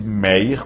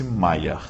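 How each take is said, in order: First: Meyer said as written, with an "ey" sound; spelling pronunciation. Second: Mayer said slowly with an "eye" sound, "MY-er"; correct name pronunciation. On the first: Law teacher showing students how the name is written, spelling pronunciation. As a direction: say Meyer letter for letter, "MAY-er". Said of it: "escreve-se Meyer com Y". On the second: Law teacher showing students how the name is said, correct pronunciation. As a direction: pronounce Mayer as "MY-er", drawn out. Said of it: "mas pronuncia-se Mayer". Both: Shown as a demonstration.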